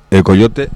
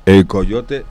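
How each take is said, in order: Both takes have the same delivery.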